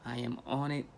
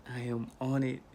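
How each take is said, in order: Both takes have the same delivery.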